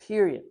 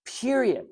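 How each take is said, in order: First: Said in the usual way. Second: "Period." raised high and set apart as a final word; emphatic period. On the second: Shown as a demonstration. Telling listeners that love is certain, an emphatic "Period.". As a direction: land "Period." like a verdict.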